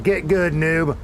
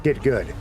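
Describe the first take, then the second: First: High, loud gamer trash talk; mocking taunt. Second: Said in the usual way. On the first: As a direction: taunt a noob, higher and louder.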